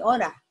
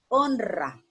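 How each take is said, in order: First: The r is a soft single tap. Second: The r is a strong rolled trill. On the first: The speaker calls it wrong. "No la puedo leer así" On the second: The speaker calls it right. "yo la pronuncio fuerte"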